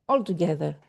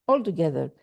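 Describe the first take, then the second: Both takes have the same delivery.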